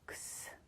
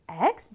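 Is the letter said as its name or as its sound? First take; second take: sound; name. First: The letter is said as its bare sound. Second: The letter is said as its full name. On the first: "in the word we pronounce this letter X" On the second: "In the alphabet we pronounce this letter as X"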